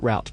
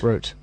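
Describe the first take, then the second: First: It is said in the US way. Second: It is said in the British way.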